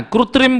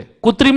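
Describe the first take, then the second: First: कृत्रिम said as "krutrim", with a clear kr cluster; कृत्रिम carefully said "kru-trim"; the right way: कृत्रिम with the r sounded, "krutrim"; correct pronunciation. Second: कृत्रिम said as "kutrim", dropping the r after k; कृत्रिम mispronounced "ku-trim" on purpose; the wrong way: कृत्रिम as "kutrim"; wrong pronunciation. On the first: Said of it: "कृत्रिम बोलना है". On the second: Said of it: "कृत्रिम नहीं बोलना है". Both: Shown as a demonstration.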